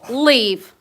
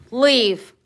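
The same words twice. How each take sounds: First: Loud sharp order; stern command. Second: Loud firm order, falling; stern command repeated. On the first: Owner ordering her dog to leave, loud and stern. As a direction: bark the command at him. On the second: Owner repeating the order to her dog, loud. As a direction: order him out firmly. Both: Real, not acted.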